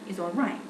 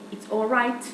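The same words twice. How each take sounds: First: The final t has no audible release. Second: The final t is released with audible burst. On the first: "With a non-audible release" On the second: "But if I say"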